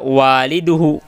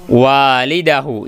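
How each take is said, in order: First: The vowel before -hu is a u. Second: The vowel before -hu is an a. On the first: The speaker calls it wrong. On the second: The speaker calls it right.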